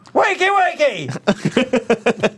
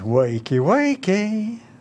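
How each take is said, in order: First: It is said loudly, with lots of energy. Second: It is said flatly, without much energy.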